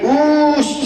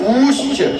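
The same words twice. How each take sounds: First: The vowel is drawn out extra long. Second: The vowel is held for a long time. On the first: "ये प्लुत है" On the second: "ये दीर्घ है"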